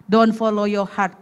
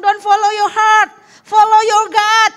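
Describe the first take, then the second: First: Said in the usual way. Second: Higher, louder, slow proclamation of "Don't follow your heart"; emphatic command. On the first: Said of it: "Terus dia dengar apa kata Tuhan". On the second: Retold or imitated. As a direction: preach it out as the Lord's firm word, slowly. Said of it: "Tuhan Yesus bilang". (seruan tegas, lebih tinggi dan keras, pelan)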